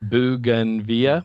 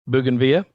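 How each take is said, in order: First: It is said slowly. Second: It is said at normal speed.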